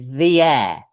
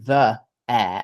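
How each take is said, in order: First: 'The' has an ee vowel, linked by y. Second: 'The' has an uh vowel before air. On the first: "that has the effect of creating a y consonant" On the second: "the, which has the vowel uh, like actor"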